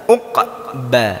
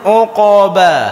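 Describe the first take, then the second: First: The q stops, then the mouth opens for b. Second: The sounds run together with lips kept rounded. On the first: The speaker calls it right. "begitu ba baru buka lagi" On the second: The speaker calls it wrong. "maka akan bercampur"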